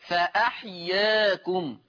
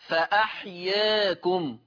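The two takes are said the same way.

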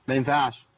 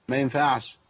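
No difference in how they are said.

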